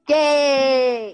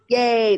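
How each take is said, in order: First: It is said with lots of energy. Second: It is said with little energy.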